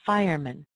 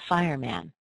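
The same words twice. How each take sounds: First: The last vowel is a weak schwa. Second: The last vowel is a full a sound. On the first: The speaker calls it right. "the sound gets replaced with this little uh sound" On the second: The speaker calls it wrong. "not fireman"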